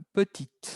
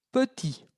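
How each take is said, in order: First: Petite with the final t heard, pe-TEET; sounded final t. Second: Petit with a silent t, pe-TEE; silent final t. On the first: Teacher contrasts petite with petit for the class, t sounded. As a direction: release the t at the end of petite. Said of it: "Cuando la pongo en rojo es cuiden". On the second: Teacher models petit with the silent t for students. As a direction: drop the t in petit. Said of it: "Siempre cuando subrayo una palabra es muda". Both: Shown as a demonstration.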